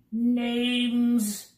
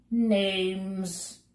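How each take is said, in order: First: Louder, higher insistent official call; cried again. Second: A brisk official calling out names. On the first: Census taker repeating his demand, loud insistent call. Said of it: "he cried again". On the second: Census taker stopping the bug on the stair, brisk call. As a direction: snap it out like a busy clerk. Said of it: "called out briskly". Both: A narrator's reading.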